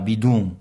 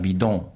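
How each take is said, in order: First: The final vowel is closed and strongly nasal. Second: The final vowel is open and less nasal. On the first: It marks a speaker from the Ajoie region. "Le « on » fermé, j'exagère aussi. ... Très nasalisé" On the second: It is the usual form elsewhere. "bien ouvert"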